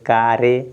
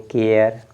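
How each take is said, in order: First: It is said as two syllables, ka-re. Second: It is said as one syllable, with silent e. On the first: The speaker calls it wrong. "लेकिन ये कारे नहीं है" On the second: The speaker calls it right. "इसको पढ़ेंगे सी A R E केयर"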